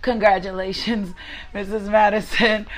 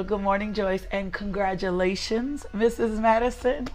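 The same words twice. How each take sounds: First: Congratulations breaking into a happy laugh; laughing with joy. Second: Said in the usual way. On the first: Real, not acted. Preacher congratulates a newly married listener, laughing warmly. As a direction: laugh through the name, delighted. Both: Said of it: "that just made me smile".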